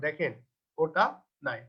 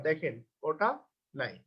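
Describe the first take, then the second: No difference in how they are said.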